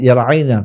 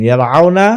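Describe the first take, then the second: First: ইয়ারআইনা with an AI glide in the middle; pronunciation demonstration. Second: ইয়ারআউনা with a stressed AU glide in the middle; pronunciation demonstration. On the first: Teacher asking students to note closely, AI glide in ইয়ারআইনা. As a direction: clear AI in ইয়ারআইনা, end falling. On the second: Teacher asking students to note closely, stressed AU in ইয়ারআউনা. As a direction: punch the AU of ইয়ারআউনা, end rising. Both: Shown as a demonstration. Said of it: "খুব ভালোভাবে লক্ষ্য করুন".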